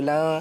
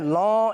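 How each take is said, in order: First: The L is thin and light. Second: The L is thick and heavy. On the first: The speaker calls it right. "बल्कि लॉ सुबु लॉ बारीक पढ़ना है" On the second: The speaker calls it wrong. "अब आपने लॉ ऐसे मोटा नहीं करना"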